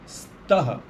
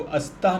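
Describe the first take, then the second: First: The word starts directly with an s sound. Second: The word starts with an added a vowel. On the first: The speaker calls it right. "उसी प्रकार अस्ति, स्तः" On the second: The speaker calls it wrong. "इसको अस्तः नहीं बोलना है"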